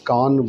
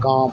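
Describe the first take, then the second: First: The final n is clearly pronounced. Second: The vowel is nasalized with no full n. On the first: "ये नून साफ बोलते हैं आप" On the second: "नूनगुना को नाक से बोलते हैं"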